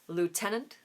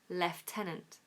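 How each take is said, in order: First: The first syllable has no f sound. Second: The first syllable has an f sound. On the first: "In America, they say lieutenant" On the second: "in standard British English, we say lieutenant. Lef with an F"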